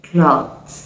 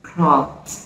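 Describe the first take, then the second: The two takes are said the same way.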